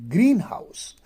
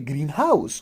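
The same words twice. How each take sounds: First: The stress falls on the first part, green. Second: The stress falls on the second part, house. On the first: The speaker calls it right. "So green would be stress" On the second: The speaker calls it wrong. "we can't say greenhouse"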